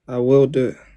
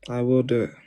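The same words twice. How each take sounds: First: It is said more loudly. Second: It is said at normal volume.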